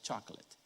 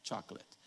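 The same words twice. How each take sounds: Both takes have the same delivery.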